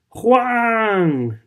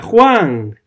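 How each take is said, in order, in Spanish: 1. El nombre se chilla con angustia. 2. El nombre se grita con fuerza. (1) "el grito desgarrador de ella" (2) "Ella grita"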